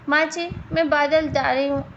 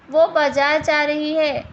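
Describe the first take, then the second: First: "बाजार" lisped as "बादल"; lisping. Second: Said in the usual way. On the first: Acted. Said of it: "Nimita के तोतलेपन के कारण". (तुतलाकर "बाजार" को "बादल" बोलना)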